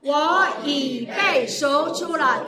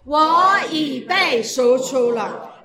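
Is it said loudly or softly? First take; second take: softly; loudly. First: It is said at a normal, softer volume. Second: It is said more loudly.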